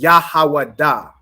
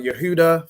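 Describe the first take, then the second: First: It uses only ah vowel sounds. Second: It uses e and u vowel sounds. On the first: The speaker calls it right. "Judah in the Hebrew is Yahawada" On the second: The speaker calls it wrong. "you wouldn't say like how people say"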